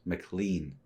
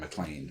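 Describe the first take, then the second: First: The last syllable rhymes with 'lean'. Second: The last syllable rhymes with 'lane'. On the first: "I want to pronounce it McLean because it's L E A N at the end" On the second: "instead of like you know John McClane from Die Hard"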